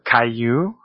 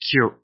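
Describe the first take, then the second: First: It is split into two syllables, kai-yu. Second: It is one syllable, sounding like kyu. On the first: The speaker calls it wrong. "or Kaiyu" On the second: The speaker calls it right. "a single syllable, a single sound"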